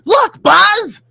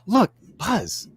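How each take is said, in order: First: It is said big, with strong emotion. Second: It is said subtly, with understated emotion. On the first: This is how it is voiced for animation. "voice acting is, it's all about being big" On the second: This is how it is acted on camera. "in acting, it's like"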